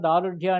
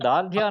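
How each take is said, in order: First: A short u vowel comes after the r. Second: The r joins the following consonant with no vowel. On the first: The speaker calls it wrong. "దారుఢ్యము అని మధ్యలో ఊ పెట్టి దాన్ని పల్చం చేయొద్దండి" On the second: The speaker calls it right. "దార్ఢ్య అనాలి"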